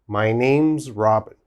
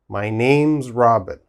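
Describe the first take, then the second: No difference in how they are said.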